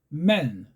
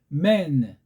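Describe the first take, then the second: First: The final n stops abruptly with no nasal tail. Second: The final n trails off with a lingering nasal hum. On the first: This is how Koreans say it. "맨 하고 딱 끝나는" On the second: This is how Westerners say it. "뒤에 그 꼬다리로 니은 소리, 콧소리 같은 것이 나"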